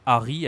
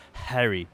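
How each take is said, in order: First: First "Harry" as "Ah-ree", no h; French pronunciation. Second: "Harry" with breathed h; English pronunciation. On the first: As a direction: say "Harry" with French r and stress on the end. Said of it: "we say Harry and not Harry". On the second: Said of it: "and not Harry". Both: Shown as a demonstration.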